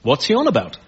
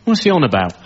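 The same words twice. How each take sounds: First: Imitated scientist's disbelief, ending pitched up; mock intellectual objection; critical science audience. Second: Plain, lightly baffled grumble; imitated ordinary punter, lost; puzzled club audience. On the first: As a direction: query it like an affronted expert. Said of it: "Whereas to a science audience". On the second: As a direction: mutual bafflement in a club crowd. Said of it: "just a normal club audience".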